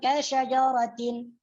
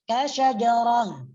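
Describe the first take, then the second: First: The word ends with a full -atin ending. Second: The word ends with an h sound. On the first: The reading continues without stopping. "kalau dibaca wasal" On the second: The reading stops on this word. "kalau dibaca waqaf"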